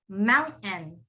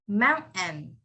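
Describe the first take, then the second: The two takes are said the same way.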